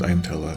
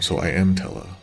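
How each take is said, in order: First: The word am is not emphasized. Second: The word am is emphasized. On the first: "with no exclamation" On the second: "You could also emphasize the word M"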